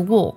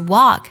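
First: The vowel is a rounded, o-like sound. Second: The vowel is an open, unrounded ah-like sound. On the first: "英式呢会读作o 的音" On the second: "美式的发音当中会把它的元音读作r 的音"

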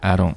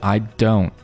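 First: The t is a quick, light tongue flap. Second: The t is held and fully released. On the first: "一个 flap T 的一个感觉，也就是舌尖的一个快速的弹动" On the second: "它不是 I don't，它没有那个舌尖顶在山药糖然后准备蓄力爆破的那个过程"

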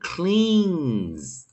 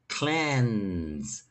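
First: The vowel is said long, like 'clean'. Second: The vowel is said short, like 'ten'. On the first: The speaker calls it wrong. "千万不要念cleans" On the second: The speaker calls it right. "它是cleanse"

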